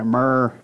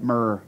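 First: Put-on "Myrrh." in a lightly done Southern accent, as if chewing tobacco; mock Southern accent. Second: Said in the usual way. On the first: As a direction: drawl "Myrrh." Southern style around a mouthful of chewing tobacco. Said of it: "I don't do a good Southern accent". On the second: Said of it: "Say it real".

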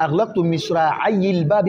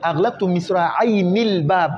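First: مصراعي ending in ayi, linked into الباب; no nun in مصراعي, short linking i; nun dropped. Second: مصراعين with a clear ni before الباب; original with nun. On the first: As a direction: say misra'ayi-l-bab without any n. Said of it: "النون تحذف لأنك تحذف عوضه". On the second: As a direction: say misra'ayni-l-bab, n sounded. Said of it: "أصله". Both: Shown as a demonstration.

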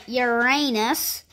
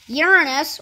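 First: "Uranus" as yuh-RAY-nus; alternative pronunciation. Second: "Uranus" as YOOR-uh-nus; first-syllable stress. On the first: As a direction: stress a long AY in the middle of "Uranus", drawn out slowly. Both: Shown as a demonstration. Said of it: "or Uranus".

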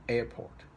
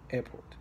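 Both takes have the same delivery.

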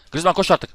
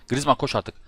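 First: Louder urging. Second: Said in the usual way. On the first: Real, not acted. Urging the player again, louder.

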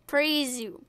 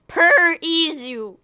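First: "Prezu" merged into two quick syllables; name run together. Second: "Per Izu" stretched slowly into parts; drawn-out name. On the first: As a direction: say "Prezu" as one word, softer. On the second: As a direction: linger on "Per", then slide into "Izu". Plays with the name's sound. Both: Shown as a demonstration.

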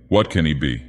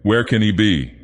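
First: Lower-voiced elder miss wondering; Big Miss Basbleu. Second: Lightly raised voice of a younger miss; Little Miss Basbleu. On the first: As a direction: puzzle over it in a lower register. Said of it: "said Big Miss Basbleu". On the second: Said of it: "said Little Miss Basbleu". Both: A narrator's reading.

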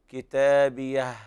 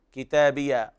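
First: كتابيه ending on a breathy whispered ه; correct pronunciation. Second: كتابيه ending in a vowel instead of the h; wrong pronunciation. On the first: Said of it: "والصواب". (الوقف على هاء كتابيه بالهمس) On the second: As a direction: say كتابيه wrongly, dropping the final ه. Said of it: "وهذا خطأ طبعًا". (نطق خاطئ لكتابيه بلا هاء) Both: Shown as a demonstration.

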